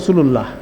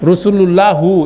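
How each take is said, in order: First: The word ends on h with no vowel. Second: The word ends with a short u vowel. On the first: The speaker calls it right. "এটাকে আমরা থেমে বলি" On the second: The speaker calls it wrong. "এটা কোনো সময় হবে না"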